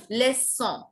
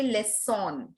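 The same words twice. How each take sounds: First: LEÇON ending "son" as a nasal vowel, no n; French LEÇON, final n left unspoken; correct nasal ending. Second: LEÇON closed with a full n sound; wrong final N. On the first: Teacher correcting students, LEÇON with nasal ending and no n. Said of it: "just leçon". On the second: Teacher warning students off the mistake, LEÇON with audible n. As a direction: pronounce the n at the end of LEÇON. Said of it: "No, we don't say leçon". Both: Shown as a demonstration.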